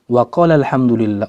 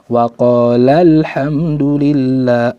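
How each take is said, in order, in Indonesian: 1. Suku kata 'la' diucapkan biasa, tanpa tekanan tambahan. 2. Suku kata 'la' ditekan dengan tekanan tambahan. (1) "Kalau kita baca untuk satu orang" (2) "yang dua orang itu ditekan sedikit"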